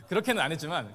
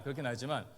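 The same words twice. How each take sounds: First: 그렇게는 said loud and falling; 그렇게는 pushed up high and loud; louder first take. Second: Said in the usual way. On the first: Shown as a demonstration. Retracting the scolding with a stressed 그렇게는.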